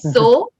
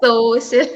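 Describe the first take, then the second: First: The middle consonant is an sh sound. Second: The middle consonant is a plain s sound. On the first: The speaker calls it right. "It's so sheer, sheer" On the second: The speaker calls it wrong. "It's not social"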